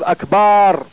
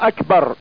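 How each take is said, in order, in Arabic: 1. الحركة بعد الباء طويلة. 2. الحركة بعد الباء قصيرة. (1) "حينما يشبع الباء تتحول الفتحة إلى ألف" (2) "على وزن أفعل"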